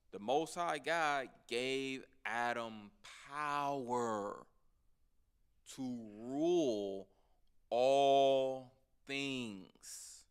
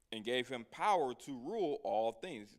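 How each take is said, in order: First: "power", "rule" and "all" stretched long and loud; slow, loud emphasis. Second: Said in the usual way. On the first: Real, not acted. Preacher repeating the verse to the listeners, slow and emphatic. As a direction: draw out each key word, swelling to a loud "all things".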